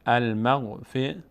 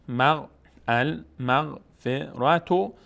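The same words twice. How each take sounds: First: المغفرة slowly by syllable, ending -rah; pausal h ending. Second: المغفرة very slowly by syllable, ending -ratu; full t ending. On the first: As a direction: stop on المغفرة with ة as breathed h. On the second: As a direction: restart and stretch المغفرة to a clear -tu. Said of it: "اگر روش توقف بکنیم". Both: Shown as a demonstration.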